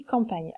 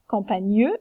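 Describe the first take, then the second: First: Said in the usual way. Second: "campagneux" said "cam-pa-gneu" with the final E sounded; wrong sounded E. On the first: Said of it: "mais on dit". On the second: Shown as a demonstration. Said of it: "on ne dit pas".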